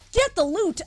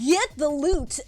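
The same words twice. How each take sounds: First: It is said in a plain, ordinary voice. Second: It is said in a put-on advertisement announcer voice.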